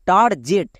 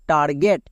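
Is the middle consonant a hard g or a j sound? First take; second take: j sound; hard g. First: The middle consonant is a j sound. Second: The middle consonant is a hard g sound. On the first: The speaker calls it wrong. "একে অনেকে ভুল করে বলে টার জেট" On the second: The speaker calls it right. "জি এর পরে ইটি থাকলে জি এর জন্য গো হয়"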